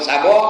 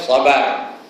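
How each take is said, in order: First: The word ends in an 'o' sound. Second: The word ends in an 'ar' sound. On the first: This is the village slang form. The speaker calls it wrong. "bahasa slang kampung gajah" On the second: This is the Quranic form. The speaker calls it right. "Quran kata sabar"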